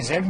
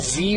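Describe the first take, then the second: First: The letter name is said the British way. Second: The letter name is said the American way. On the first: "British जुबान में जेड बोलते हैं" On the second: "American जुबान में जी बोलते हैं"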